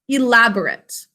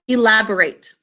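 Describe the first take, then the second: First: The last syllable has a reduced, weak vowel. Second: The last syllable has a long A vowel. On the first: It is the adjective meaning detailed or fancy. "we pronounce it a little differently when we use it as an adjective" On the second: It is the verb meaning to add detail. "A says its name because of a silent final E"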